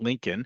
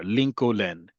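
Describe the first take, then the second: First: The second L sound is left silent. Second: The second L sound is clearly pronounced. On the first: This is the English way of saying the name. "because in English there is that silent L" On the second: This is the Hebrew way of saying the name. "Lincoln is how you say um, a president's uh, name in Hebrew"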